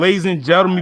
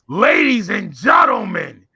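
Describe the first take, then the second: First: It is said in a normal speaking voice. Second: It is said in a wrestling announcer voice.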